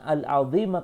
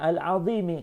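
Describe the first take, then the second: First: The word ends with an 'a' vowel. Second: The word ends with an 'i' vowel. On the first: The word describes the Lord. The speaker calls it wrong. "Maka salah, yang benar itu bukan al-azima" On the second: The word describes the throne. The speaker calls it right. "bacanya al-azimi karena ngikut kepada al-arash"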